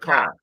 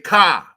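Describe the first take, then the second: First: It has a general American accent. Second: It has the local DC-Chicago accent. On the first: This is how the rest of the country says it. "instead of car" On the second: This is how people from DC and Chicago say it. "We the only two people in the country that say car"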